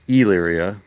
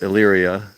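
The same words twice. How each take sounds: First: The first vowel is a hard, long E sound. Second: The first vowel is a soft, short E sound. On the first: "Some people pronounce it" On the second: "I go with the soft E"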